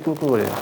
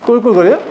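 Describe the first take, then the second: First: Said in the usual way. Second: 꿀꿀거려요 asked with a high teasing rise, louder; quizzing rise. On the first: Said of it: "뭐라고 돼지들이 지르는지 아세요?". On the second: Shown as a demonstration. Preacher quizzing the congregation, rising playful question. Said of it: "뭐라고 소리 지르는지 아세요?".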